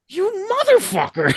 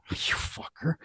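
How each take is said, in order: First: Very high, strained mock curse; high mock-outraged squeal. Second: Hushed, voiceless mock curse; mock cursing under breath. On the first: [name] to singer handed [name]'s mic, high squealed mock curse. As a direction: squeak it in comic envy. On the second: [name] to singer after [name]'s offer, whispered mock curse.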